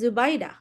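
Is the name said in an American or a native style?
native. The name is said in its native style. "if your name is Zubaida"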